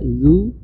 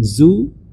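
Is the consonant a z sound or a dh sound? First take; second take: dh; z. First: The consonant is made with the tongue tip up. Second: The consonant is a plain z sound. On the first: The speaker calls it right. "seharusnya dibaca zu, ujung lidah dengan ujung di atas" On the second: The speaker calls it wrong. "kadang-kadang dibaca dengan zu"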